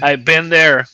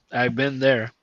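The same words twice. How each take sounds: First: Louder, punchy I've been there; loud emphatic agreement. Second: Said in the usual way. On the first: Real, not acted. Friend sympathizing about a lazy coworker, loud emphatic agreement.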